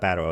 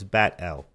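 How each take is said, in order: First: The name sounds like the word battle. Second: The name is said as bat, then L. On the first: The speaker calls it wrong. "It's not Battle L" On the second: The speaker calls it right. "It's Bat L"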